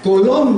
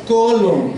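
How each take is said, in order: First: "Colón" with the final syllable strongest, co-LÓN; stress on last syllable. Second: "colon" stressed on its first syllable, CO-lon; corrected first-syllable stress. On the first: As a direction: imitate the child's mistake, punching the LÓN of "Colón". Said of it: "acentuó más fuerte la última sílaba". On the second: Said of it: "Lo corrigieron". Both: Retold or imitated.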